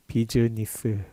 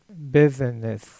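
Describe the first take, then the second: First: The word is said with four syllables. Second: The word is said with three syllables. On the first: The speaker calls it wrong. "우리나라 말로 하면 비즈니스, 4음절로 발음하죠" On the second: The speaker calls it right. "3음절인데 에 소리가 길어지면서 두 번째 모음이 아예 없어집니다"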